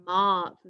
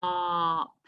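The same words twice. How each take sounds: First: Said in the usual way. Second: "mop" with a long held mmm, then op; sounded out. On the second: Shown as a demonstration. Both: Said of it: "So the new word is".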